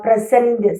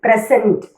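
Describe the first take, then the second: First: present said slowly, weight on cent; verb stress, second syllable. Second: present stressed on the opening പ്ര; noun stress, first syllable. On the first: Teacher demonstrates the verb, present slowly stressed on its second syllable. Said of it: "സെന്റിൻ്റെ അടുത്താണ്". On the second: Teacher demonstrates the noun for gift, present stressed at the start. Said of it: "തുടക്കത്തിലായിരിക്കും അതിൻ്റെ stress noun ആണെങ്കിൽ". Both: Shown as a demonstration.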